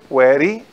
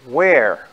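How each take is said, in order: First: The word is said with two syllables. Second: The word is said with one syllable. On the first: The speaker calls it wrong. "a gente fala wary, em português do Brasil" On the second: The speaker calls it right. "na verdade só tem uma sílaba"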